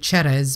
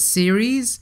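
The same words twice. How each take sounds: First: The name is said with an Italian pronunciation. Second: The name is said with an English pronunciation. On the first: The speaker calls it wrong. "pronouncing it the Italian way, which which is normally Ceres" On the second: The speaker calls it right. "supposed to be pronounced as Ceres"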